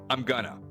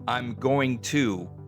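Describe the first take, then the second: First: The phrase is shortened to a reduced form. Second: The phrase is said in its full form.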